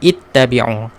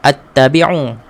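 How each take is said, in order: First: The word begins with an 'i' vowel. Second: The word begins with an 'a' vowel. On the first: The speaker calls it right. "Kita mulakan dengan ittabi'u" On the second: The speaker calls it wrong. "Tak perlulah kita ikut attabi'u. Tak boleh"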